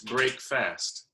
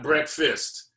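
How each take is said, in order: First: It is said as two separate parts, break fast. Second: It is said as one blended, reduced word. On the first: The speaker calls it right. "It's breakfast. ... Exactly, break fast" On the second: The speaker calls it wrong. "mispronounce it and call it breakfast. It's not breakfast"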